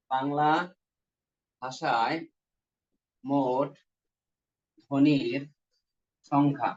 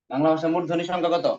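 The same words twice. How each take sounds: First: Slow dictation. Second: Said in the usual way. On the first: Real, not acted. Teacher dictating to students who are writing, slow dictation. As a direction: dictate one word at a time.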